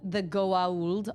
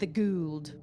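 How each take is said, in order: First: The name is said in full, like 'go-ah-ould'. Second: The name is said shortened, like 'gould'. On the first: This is how everyone else says it. The speaker calls it right. "they call it the Goa'uld all the time" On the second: This is how a character with a thick accent says it. The speaker calls it wrong. "He always calls them the Gould"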